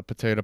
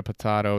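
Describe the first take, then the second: First: "potato" as puh-TAY-toh; potato with a long A as in day; long-A pronunciation. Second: "potato" as puh-TAH-toh; potato with an open A as in father; broad-A pronunciation. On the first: Reciting two pronunciations as motto. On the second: Second pronunciation, contrasting the first. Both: Shown as a demonstration.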